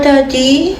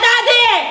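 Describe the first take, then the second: First: It sounds sad and sorrowful. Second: It sounds angry and harsh. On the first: "daddy na sad" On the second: "daddy na galit"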